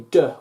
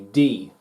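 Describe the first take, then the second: First: The letter is said as its short sound. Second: The letter is said as its full name. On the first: The speaker calls it wrong. "We don't say D" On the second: The speaker calls it right. "we say D"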